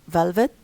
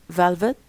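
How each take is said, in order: Both takes have the same delivery.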